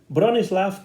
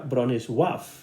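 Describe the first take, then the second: First: The name is said in a non-Polish way. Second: The name is said in the Polish way.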